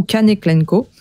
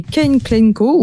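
First: "Kane Klenko" read the French way, Kane as "ka-né"; French pronunciation. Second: "Kane Klenko" said the English way, Kane as "kèn"; English pronunciation. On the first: Host offers a second reading of the author's name, French pronunciation. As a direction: say "Kane Klenko" spelled out in French, two syllables on Kane. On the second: Host names the game's author, English-style pronunciation. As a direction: say "Kane Klenko" with Kane rhymed on "ken". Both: Shown as a demonstration. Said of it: "ou Kane Klenko".

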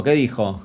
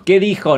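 First: Said in the usual way. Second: Higher, insistent repeat of the question; insistent demand. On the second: Real, not acted. Streamer won't keep talking until answered, insistent. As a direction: demand to know what was said.

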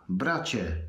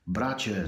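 First: Loud repeated call. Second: Calling out. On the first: Atra calls his brother again, booming voice. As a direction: repeat the call a bit louder, falling at the end. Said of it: "powtórzył donośnym głosem". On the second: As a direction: call across the battlefield to the brother. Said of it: "zawołał Atra". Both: A narrator's reading.

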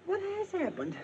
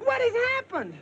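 First: Anxious question. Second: Very high, insistent question; urgent demand. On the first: First asking, distant and high. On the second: Husband brushing aside wife's questions, urgent demand. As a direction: cut in and demand to know. Asks again, louder and more urgent. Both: Acted.

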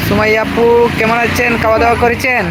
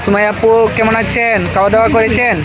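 The two takes are said the same way.

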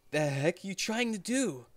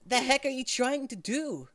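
First: Put-on older main character voice. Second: Put-on high-pitched young guy snapping; too high main character voice. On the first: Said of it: "He's, he's, he's older than that". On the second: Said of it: "that's too high pitched". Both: Shown as a demonstration.

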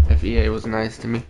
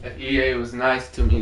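First: Quick muttered repeat; hurried throwaway repeat; fast repeat. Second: Said in the usual way. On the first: Real, not acted. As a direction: rattle it off fast under breath.

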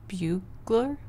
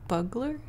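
First: "Bugler" with a long BYOO first syllable; tentative "Bugler", first vowel as in "few"; trying a pronunciation. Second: "Bugler" with a short BUG first syllable; tentative "Bugler", first vowel as in "bug", rising; trying a pronunciation. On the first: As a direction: say "Bugler" as BYOO-gler, questioning. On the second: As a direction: say "Bugler" as BUG-ler, questioning. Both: Shown as a demonstration. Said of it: "How do you say that?".

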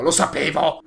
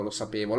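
First: Louder exclamation. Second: Said in the usual way. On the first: Real, not acted. Repeats phrase, last one shouted.

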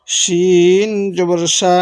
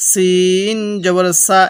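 First: Long "শিন" with a thick sh, "সা" said sha. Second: Long "সিন" with a thin, pressed s, then "সা". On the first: Teacher contrasts shin with sin, thick sh in "শিন জবর সা". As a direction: say "শিন জবর সা" slowly, sh as in "she". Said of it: "শিনের উচ্চারণটা একটু মোটা করে করব". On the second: Teacher contrasts sin with shin, thin s in "সিন জবর সা". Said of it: "একটু চাপ দিয়ে পড়লে চিকন করে পড়ব". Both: Shown as a demonstration.

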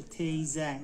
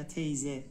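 First: تیزه ending in an open "a", like teyza; teacher's variant of تیزه ending in -za; final open a. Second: تیزه ending in "e", like teyze; teacher's variant of تیزه ending in -ze; final e. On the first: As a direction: say تیزه with the last vowel as "a". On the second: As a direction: say تیزه with the last vowel as "e". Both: Shown as a demonstration.

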